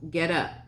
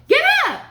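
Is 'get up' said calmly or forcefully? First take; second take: calmly; forcefully. First: It is said in a calm, even voice. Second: It is said loudly and with strong force. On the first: It is a plain command ending in a period. "Would that still be a period?" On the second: It is an urgent command ending in an exclamation point. "The way that I just did it, what would it be? Yeah, good job at exclamation point"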